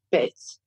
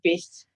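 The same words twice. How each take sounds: First: Tiny triumphant lisp on "Bitch"; gap-toothed lisp. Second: "Bitch" lisped as "pitch" through a missing tooth; gap-toothed lisp. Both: Retold or imitated. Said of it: "she's just lost her upper tooth".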